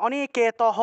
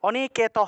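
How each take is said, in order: Both takes have the same delivery.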